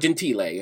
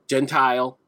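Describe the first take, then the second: First: The name is pronounced the Italian way. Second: The name is pronounced the English way.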